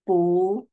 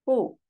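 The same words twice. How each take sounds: First: 不 rising in the second tone. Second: 不 said alone, falling fourth tone. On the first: Teacher showing 不 in the changed rising tone. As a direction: lift 不 upward. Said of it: "second tone". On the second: Teacher giving the base form of 不, falling. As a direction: drop 不 sharply down. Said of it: "This 不". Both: Shown as a demonstration.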